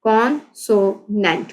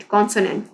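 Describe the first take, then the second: First: "consonant" slowly, in three separated beats; syllable by syllable. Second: Said in the usual way. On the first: Shown as a demonstration. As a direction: pause after con and after so in "consonant". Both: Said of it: "ये इसके three syllable आ रहे हैं".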